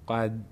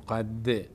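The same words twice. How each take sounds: First: The final d is clipped with no bounce. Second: The final d is followed by an i vowel. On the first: "نمیگیم قد قد نشتباست" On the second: "که قد کسره بهش بدیم"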